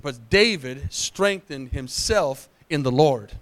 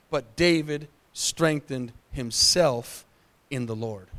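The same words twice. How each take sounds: First: "But David strengthened himself in the Lord" said slowly with stress on David; slow emphatic repeat. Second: Each word of "But David strengthened himself in the Lord" drawn out slowly; slow emphatic reading. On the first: Pastor repeating the verse for the church, slow stress on David. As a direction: drive the verse home slowly. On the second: Pastor reading the key verse to the congregation, slow and weighty. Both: Shown as a demonstration. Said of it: "Leave that up there for a second".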